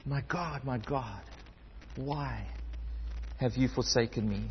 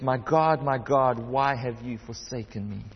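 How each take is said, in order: First: Soft, broken anguish, much quieter; anguished cry. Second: Said in the usual way. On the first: Retold or imitated. Jesus on the cross cries to God in quiet anguish. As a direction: let the words ache and drop soft. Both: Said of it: "in this loud voice in absolute anguish".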